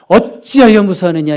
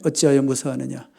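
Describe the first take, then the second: First: It is read in a strong, scolding tone. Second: It is read in a mild, plain tone.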